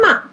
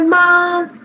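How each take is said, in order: First: The pitch falls sharply from high to low. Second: The pitch stays high and level. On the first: "fourth है" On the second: "first tone है"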